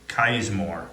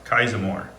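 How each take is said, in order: Both takes have the same delivery.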